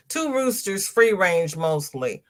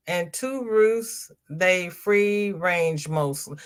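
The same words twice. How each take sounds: First: Correcting her own slip; corrected reading. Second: Said in the usual way. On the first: Real, not acted. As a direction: stress "Two roosters" to set it right. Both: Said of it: "I got it the second time".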